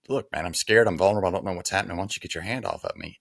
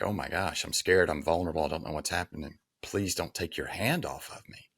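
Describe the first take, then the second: First: Pushing him away, voice up and firm; mock macho defiance that fades at the end; gruff tough guy. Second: Soft, shaky-kneed plea, sinking softer; retold fear, quiet and small; scared pleading. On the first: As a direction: brush off the helping hand like a hard case. Retold tough-guy line, then reversed. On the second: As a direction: beg him to keep his hand there, almost under your breath. Same line, now scared and pleading.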